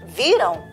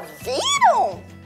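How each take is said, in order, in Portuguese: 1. É dita de forma afirmativa, sem entonação de pergunta. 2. É dita com entonação de pergunta. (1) "a galinha não fala assim" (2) "ela fala"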